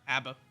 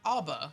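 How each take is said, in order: First: The first vowel sounds like in 'abdomen'. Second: The first vowel sounds like in 'ob'. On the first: "like abdomen" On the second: "they'd be like ob, ... like ob"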